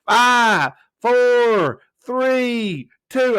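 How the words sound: It is said in an exaggerated, mocking accent. This imitates others making fun of the accent. "I don't sound like that now"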